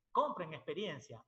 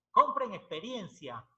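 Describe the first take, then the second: First: Said in the usual way. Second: Loud, slow, each word pressed: Compren experiencia; emphatic advice. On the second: Retold or imitated. ("Compren experiencia" fuerte, lento y enfático) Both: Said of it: "Me decía".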